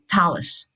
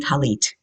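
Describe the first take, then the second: First: The word ends with an s sound. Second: The word ends with a hard t sound. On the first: "They would make it a suv"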